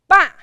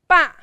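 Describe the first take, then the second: No difference in how they are said.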